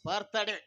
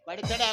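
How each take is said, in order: First: The word is said as two syllables, 'birthday'. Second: The word is mangled into extra syllables, 'baditade'. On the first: The speaker calls it right. "ಅದ happy ಬರ್ತ್ಡೇ" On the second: The speaker calls it wrong. "ಬಡಿತಡೆ ಅಲ್ಲಪ್ಪ"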